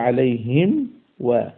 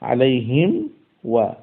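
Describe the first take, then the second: Both takes have the same delivery.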